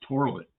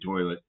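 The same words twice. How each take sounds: First: Toilet is said Pittsburgh-style, with an R sound. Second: Toilet is said plainly, with no R sound.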